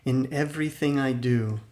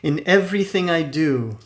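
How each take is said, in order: First: It is said at ordinary speaking volume. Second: It is said loudly with strong energy.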